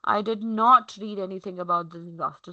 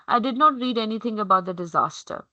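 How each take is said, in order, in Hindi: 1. ज़ोर शब्द 'not' पर है। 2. यह सपाट लहजे में बोला गया है, किसी शब्द पर ज़ोर नहीं है। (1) "निगेशन पे फोकस हो जाता है" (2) "my tonality is similar, monotonous"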